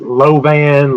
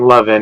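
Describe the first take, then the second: First: The name ends with a full 'an' sound. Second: The name ends like 'lovin', rhyming with 'oven'. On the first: It is how most people mistakenly say it. The speaker calls it wrong. "most people will call it Lovan" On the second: It is how the family says it. The speaker calls it right. "but saying lovin'"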